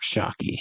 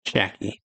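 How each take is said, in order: First: Shaki said with an open "ah", SHAH-kee; first pronunciation. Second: Shaki said with a flat "a" as in cat, SHACK-ee; corrected pronunciation. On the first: Reader voices the kidnapping news, Shaki as SHAH-kee. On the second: Reader corrects the name to himself, Shaki as SHACK-ee. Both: Shown as a demonstration.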